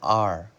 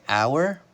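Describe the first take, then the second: First: It is said with one vowel, like letter R. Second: It is said with two vowel sounds, like 'hour'. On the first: "or we can pronounce it like the letter R" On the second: "we can pronounce it like ow, like the word our"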